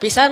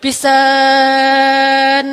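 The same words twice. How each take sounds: First: The word is said at normal length. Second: The word is stretched out very long.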